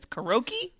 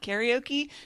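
First: It has the rural Minnesota and Wisconsin pronunciation. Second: It has the usual, widespread pronunciation. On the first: The speaker calls it wrong. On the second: The speaker calls it right.

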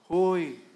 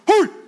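First: It is said in a very soft voice. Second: It is said in a loud, firm voice. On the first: "with a very soft voice" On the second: "that shocks"

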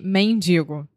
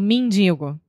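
First: The first vowel sounds like an E. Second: The first vowel sounds like an I. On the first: This is how other accents say it. "Ao invés de mendigo" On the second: This is how a Rio de Janeiro speaker says it quickly. "Eu, com meu sotaque, eu falo mendigo"

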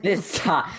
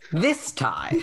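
First: It is said in a normal speaking voice. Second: It is said in a put-on narrator voice.

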